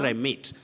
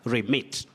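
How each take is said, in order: First: The first vowel is long, like 'ee'. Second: The first vowel is short, like 'eh'. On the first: The speaker calls it wrong. "Don't say remit" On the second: The speaker calls it right. "letter E takes the short sound E"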